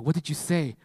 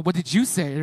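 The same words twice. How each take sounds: First: Said in the usual way. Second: "you" punched louder in the question; stress on YOU. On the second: Retold or imitated. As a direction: throw it back, hitting "you". Throws the question back, stressing you.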